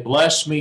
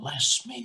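First: It is said in a full, loud voice. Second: It is said in a soft whisper. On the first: The speaker calls it wrong. "you don't say" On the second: The speaker calls it right. "It's a whisper voice"

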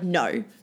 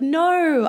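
First: It sounds firm and serious. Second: It sounds playful and teasing.

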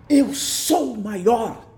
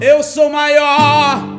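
First: It is said softly, with weak articulation. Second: It is said forcefully, with strong articulation.

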